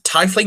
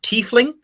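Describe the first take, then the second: First: The first syllable sounds like the word 'tie'. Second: The first syllable does not sound like 'tie'. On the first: The speaker calls it right. "I pronounce it Tiefling, because it's a TIE fighter" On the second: The speaker calls it wrong. "not Tiefling"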